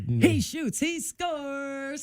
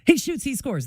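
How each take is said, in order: First: The words are stretched and drawn out. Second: It is said at a normal quick pace.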